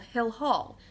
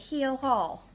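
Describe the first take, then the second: First: The first word has a short 'i' vowel. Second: The first word has a long 'ee' vowel. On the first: "there's a building at school called Hill Hall" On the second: "So she would say Heel Hall"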